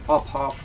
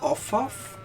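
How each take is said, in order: First: The p and h are sounded separately. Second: The ph is sounded as an f. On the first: It is the way a non-native English speaker finds natural. "more natural for me to pronounce it as Ophoff" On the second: It is the way most English speakers say it. "Most people pronounce the P H as F"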